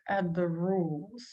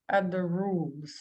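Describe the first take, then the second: The two takes are said the same way.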